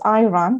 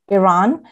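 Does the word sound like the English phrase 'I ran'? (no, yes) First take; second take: yes; no. First: It sounds like the phrase 'I ran'. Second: It does not sound like 'I ran'. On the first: "some people in the U.S. pronounce as Iran" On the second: "the country that I was born in"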